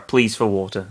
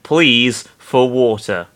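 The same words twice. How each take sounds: First: Said in the usual way. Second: PLEAS drawn out slowly, with weight; stress on pleas. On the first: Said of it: "Sorry, pleas for water". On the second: Real, not acted. Reader on the fire scene, "pleas" slowly stressed. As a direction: lean hard and long on "pleas". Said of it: "I really stressed that one".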